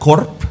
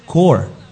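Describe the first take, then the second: First: The word ends with a clear p sound. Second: The word ends without any p sound. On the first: The speaker calls it wrong. "si alguien lo pronuncia corp, lo está haciendo mal" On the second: The speaker calls it right. "Se debe decir Core"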